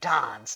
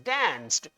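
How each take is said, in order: First: It is said with a British accent. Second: It is said with an American accent. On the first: "The British says dance" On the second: "the American says this word or pronounce this word as danced"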